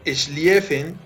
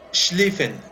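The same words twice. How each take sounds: First: The name is said the way it's spelled. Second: The name is said with German pronunciation. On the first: The speaker calls it wrong. "Se lee Schlieffen" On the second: The speaker calls it right. "pero se pronuncia Schlieffen, es en alemán"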